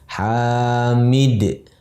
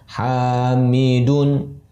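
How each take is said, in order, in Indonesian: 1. Kata ini berakhir pada konsonan d yang memantul. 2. Kata ini berakhir dengan vokal plus n. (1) "dalam kondisi waqaf, berhenti di akhir ... dalnya disukunkan" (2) "Kalau kita sambungkan dalam kondisi sedang wasol"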